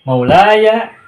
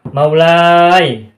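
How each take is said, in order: First: The word ends in an 'aya' sound. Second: The word ends in an 'ai' sound. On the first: The speaker calls it right. "Melainkan harus" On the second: The speaker calls it wrong. "tidak ditemukan"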